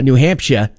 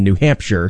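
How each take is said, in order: First: It is said in a local New England accent. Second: It is said in the speaker's plain accent.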